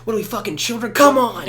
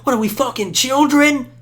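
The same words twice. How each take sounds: First: High but reined-in scolding, louder on come on; yell, but hold it down for the mic; held-back yell. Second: High, loud scolding yell. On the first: Scolding friends while sparing the mic, a reined-in high yell. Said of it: "I'm trying not to be too loud for the mic". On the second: Scolding grown friends like children, a loud high yell. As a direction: scold them like a parent, shouting. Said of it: "so I'm yelling now". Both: Retold or imitated.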